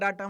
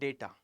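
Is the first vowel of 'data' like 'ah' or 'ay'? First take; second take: ah; ay. First: The first vowel sounds like 'ah'. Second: The first vowel sounds like 'ay'. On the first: The speaker calls it wrong. "डाटा डाटा मत करना" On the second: The speaker calls it right. "Facts को हमेशा डेटा ही बोलूंगा।"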